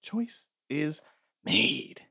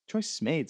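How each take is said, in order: First: "Choice is", a pause, then MADE on its own; emphatic pause. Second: Said in the usual way. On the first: Real, not acted. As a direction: break "Choice is made" before the last word for finality. Repeat with a pause before last word.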